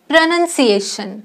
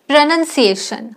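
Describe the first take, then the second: No difference in how they are said.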